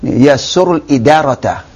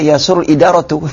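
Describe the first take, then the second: First: The last word ends in an 'a' vowel. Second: The last word ends in a 'u' vowel. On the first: The administration is the object of the verb. The speaker calls it right. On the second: The administration is the subject of the verb. The speaker calls it wrong.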